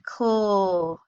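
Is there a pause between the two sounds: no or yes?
no. The two sounds are blended together without a break. The speaker calls it right. "you read kl. So don't pause between them"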